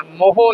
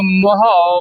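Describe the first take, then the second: First: ਮੋਹੋ with two round O sounds; ਮੋਹੋ as a quick wrong reading, "mo-ho"; mistaken "o" ending. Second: ਮੋਹਾਉ read as "mo-haau"; ਮੋਹਾਉ ending on a wide AU glide; open "au" ending. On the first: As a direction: close the end of ਮੋਹੋ to a short "ho". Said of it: "ਮੋਹੋ ਨਹੀਂ ਪੜ੍ਹਨਾ". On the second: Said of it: "ਇਹਨੂੰ ਮੋਹਾਉ ਪੜ੍ਹਨਾ". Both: Shown as a demonstration.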